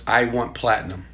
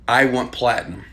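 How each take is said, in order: Both takes have the same delivery.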